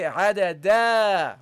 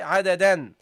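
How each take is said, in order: First: The word ends without an n sound. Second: The word ends with an n sound. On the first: The word is the last word before a full stop. "that's when this is the last word" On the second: The word stands in the middle of a sentence. "in the middle of sentence, then you say in"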